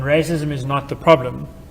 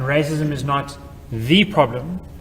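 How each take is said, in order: First: No word is given extra stress. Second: The word the is stressed. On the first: "where no uh, extra sign has been used to place an emphasis" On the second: "where the emphasis is on the word the"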